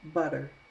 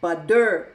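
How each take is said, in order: First: The middle T is a soft, D-like flap. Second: The middle T is a hard, stressed T. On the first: The speaker calls it right. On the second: The speaker calls it wrong.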